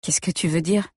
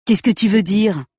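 First: Said in the usual way. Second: Higher, louder mocking mimic of her question; mocking imitation. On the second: A narrator's reading. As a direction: parrot her words back to belittle her. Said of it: "Répète-t-il en m'imitant". (imitation moqueuse, plus aiguë et plus forte)

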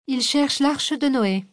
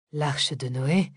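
First: High, slow and detached; slow, lofty indifference. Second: Low, slow wondering question; slow musing echo; puzzled echo. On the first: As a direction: hand it over coolly, slowly. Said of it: "avec détachement". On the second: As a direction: turn it over slowly, amused. Parella echoes the words, puzzled. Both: Acted.

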